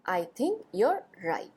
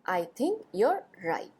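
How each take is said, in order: First: 'You' and 'are' are joined into one syllable. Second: The same.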